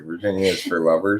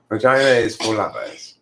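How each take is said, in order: First: The R in the first word is pronounced. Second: The R in the first word is silent.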